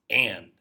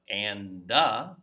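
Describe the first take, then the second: First: The word ends cleanly on the d. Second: An extra vowel follows the final d. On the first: The speaker calls it right. "it's and" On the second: The speaker calls it wrong. "it's not anda"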